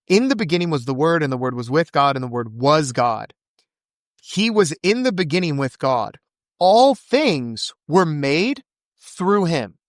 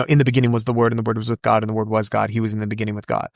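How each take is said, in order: First: Deliberate scripture reading with rising emphasis. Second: Very fast, low-key recitation from memory; rapid-fire recitation. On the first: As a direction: weigh each phrase, stretching the last one out. Rereads the verse with weight. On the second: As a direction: rattle the verse off quickly. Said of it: "You said that so fast". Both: Real, not acted.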